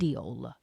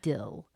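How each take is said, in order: First: The vowel is a long 'ee' sound. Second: The vowel is a short 'i' sound. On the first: This is how the speaker used to say it. "when I used to say the word D E A L, I used to say deal" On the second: This is how people say it locally. "they say dill here, like D I L L"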